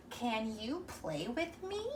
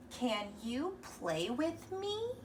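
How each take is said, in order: First: "me" goes up at the end, slow; rising question. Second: "me" rises at the end, very slow; slow question, voice lifting on "me"; rising question. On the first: Teacher to kids, modeling the question tone. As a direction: ask it, lifting on "me". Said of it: "because we're asking a question". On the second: Teacher to kids, reading a question aloud. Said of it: "So it starts with can". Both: Shown as a demonstration.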